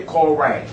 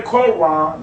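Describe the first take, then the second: First: Koran said ko-RAN with a hard K; Koran pronunciation. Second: Said in the usual way. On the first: Retold or imitated. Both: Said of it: "they don't say Quran".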